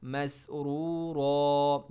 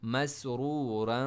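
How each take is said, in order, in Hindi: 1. शब्द एक लंबे खुले स्वर पर खत्म होता है। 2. शब्द एक छोटे स्वर और n की आवाज़ के साथ खत्म होता है। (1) "डबल ज़बर हमेशा अलिफ में चेंज होगा जब आप स्टॉप करेंगे" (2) "अगर आप इसको कंटिन्यू करना चाहें तो ये क्या होगा"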